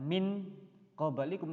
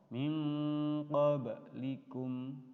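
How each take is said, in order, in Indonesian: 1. Bunyi n diucapkan penuh dan jelas. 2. Bunyi n samar dan bersengau. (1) "bukan min qablikum" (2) "kita sudah siap-siap untuk membaca qaf"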